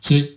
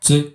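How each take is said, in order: Both takes have the same delivery.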